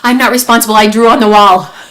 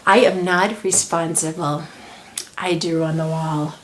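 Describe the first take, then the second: First: There is a short pause between the sentences. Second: There is a long pause between the sentences.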